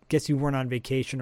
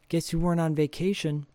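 First: The line is mumbled indistinctly. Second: The line is spoken clearly.

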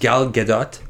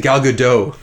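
First: The name is pronounced the Israeli way. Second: The name is pronounced the French way. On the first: "that's the way you're actually supposed to pronounce it. That's the Israeli pronunciation" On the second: "we always say Gal Gadot. Because we live in Montreal"

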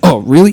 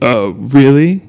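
First: It sounds excited and eager. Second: It sounds a little condescending. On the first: The speaker is eager to share something new. "it still comes from that place as an adult of excitement" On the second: The listener is looked down on for not knowing. "now it's like a little condescending"

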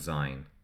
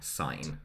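First: The word begins with a z sound. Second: The word begins with a hard s sound. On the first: The speaker calls it wrong. "We tend in this country to sing "Auld Lang Syne,"" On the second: The speaker calls it right. "but it's "Auld Lang Syne." ... It's a hard S, not a Z"

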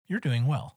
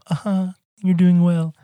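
First: It is said plainly and sincerely. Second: It is said in a mocking, sarcastic tone.

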